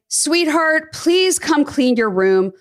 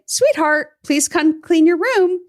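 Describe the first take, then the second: First: It is said in an exasperated tone with a huff. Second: It is said in a calm, pleasant tone.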